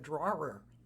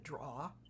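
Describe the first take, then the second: First: The word is said in a standard way. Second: The word is said in a Boston way. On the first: "it's a drawer" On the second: "I say that's a draw"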